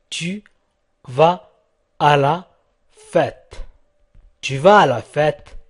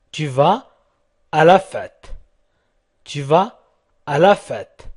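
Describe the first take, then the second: No difference in how they are said.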